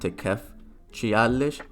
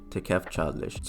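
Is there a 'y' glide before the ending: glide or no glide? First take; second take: glide; no glide. First: A 'y' glide is heard before the ending. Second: No 'y' glide is heard before the ending. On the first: The speaker calls it wrong. "It's not Tikef Chialish" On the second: The speaker calls it right.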